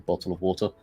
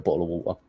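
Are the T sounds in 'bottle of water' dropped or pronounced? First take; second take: pronounced; dropped. First: The T sounds are clearly pronounced. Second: The T sounds are dropped, glottal style.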